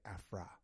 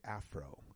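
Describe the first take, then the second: First: The word ends in an 'ah' vowel. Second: The word ends in an 'oh' vowel. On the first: The speaker calls it right. "I say Afra, just like you say African" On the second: The speaker calls it wrong. "I don't say Afro"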